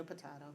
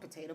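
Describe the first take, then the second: First: "potato" with an open "ah" in the middle, po-TAH-to. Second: "Potato" with a long "ay" in the middle, po-TAY-to. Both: Shown as a demonstration. Saying the word two ways.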